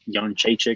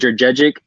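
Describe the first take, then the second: First: The surname is said with its native sounds. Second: The surname is read out as it is spelled. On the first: "I guess they say Jonchechik or whatever" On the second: "I'm going to say it the way it's spelled"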